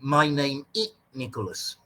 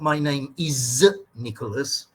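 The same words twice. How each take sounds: First: The word 'is' is barely pronounced or dropped. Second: The word 'is' is pronounced clearly and fully. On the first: The speaker calls it wrong. "They say" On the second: The speaker calls it right. "because they don't know how to say is"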